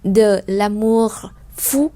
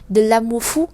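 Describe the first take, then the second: First: It is said slowly with a clear R sound. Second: It is said fast with the R sound dropped. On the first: "khi đọc chậm thì chúng ta sẽ thấy là âm R ra được rất là rõ" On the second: "khi mà đọc nhanh thì người ta đọc là"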